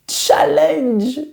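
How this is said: It is said with an English accent.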